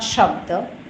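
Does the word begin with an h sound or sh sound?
sh sound. The word begins with an sh sound. This is the Vishnupriya Manipuri and Bengali pronunciation. "not shabda"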